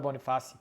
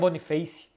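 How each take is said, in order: First: The name is pronounced a non-English way. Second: The name is pronounced the English way. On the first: The speaker calls it wrong. "não é Boniface" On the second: The speaker calls it right. "a gente fala com pronúncia em inglês"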